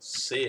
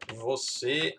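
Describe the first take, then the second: First: The word is shortened to one syllable. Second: The word is said in full, two syllables. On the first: "você acaba virando C" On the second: "você acaba virando C"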